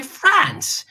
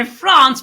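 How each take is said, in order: First: "France" with the a of cat; everyday short A. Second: "France" with a broad ah vowel; show's long A. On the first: Host's everyday way of saying "France", short a. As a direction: say "France" as Franss. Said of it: "in everyday life I say France". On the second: Host's on-show way of saying "France", broad ah. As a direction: say "France" as Frahnce. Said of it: "I'm going to say France". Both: Shown as a demonstration.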